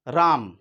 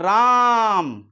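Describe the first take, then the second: First: The vowel is said at normal length. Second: The vowel is held and drawn out. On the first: "राम हो गया तो एक simple हो गया" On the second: "इनके उच्चारण में जो है अधिक समय लग रहा है"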